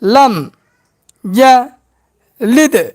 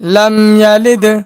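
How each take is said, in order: First: The phrase is broken into separate parts. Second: The phrase is said smoothly joined together. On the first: "ভাঙ্গা ভাঙ্গা উচ্চারণ" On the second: "এবার একসঙ্গে উচ্চারণ করব"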